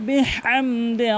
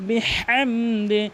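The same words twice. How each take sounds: The two takes are said the same way.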